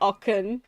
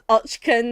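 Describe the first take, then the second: First: The middle has a plain 'k' sound. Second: The middle has a 'ch-k' consonant sound. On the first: The speaker calls it wrong. "not Ocken, like I've been calling him" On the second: The speaker calls it right. "So his name's Ochken then"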